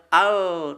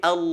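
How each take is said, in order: First: "al" with a clear light l; thin l. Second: "al" with a dark heavy l; thick l. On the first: Teacher showing the sound to avoid, thin "al". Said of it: "bunyinya bukan al". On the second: Teacher showing the thick lam, dark "al". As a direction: raise the tongue back on "al". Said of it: "dibaca dengan tebal". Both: Shown as a demonstration.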